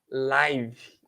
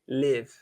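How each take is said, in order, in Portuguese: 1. É pronunciado com a pronúncia do adjetivo. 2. É pronunciado com a pronúncia do verbo. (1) "Quando é o nome ao vivo, simultâneo, a pronúncia é live" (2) "quando é o verbo, quando é a ação viver, a pronúncia é live"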